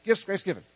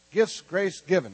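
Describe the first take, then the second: First: Quick run through the three words; said faster. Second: Gifts, grace given in slow, spaced-out words; raised, emphatic, word-by-word recitation; slow and measured. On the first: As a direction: rattle it off briskly, raised voice. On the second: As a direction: lead a crowd slowly through it. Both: Shown as a demonstration. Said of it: "Let's say it faster".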